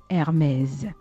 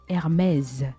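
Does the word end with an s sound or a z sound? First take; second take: z sound; z sound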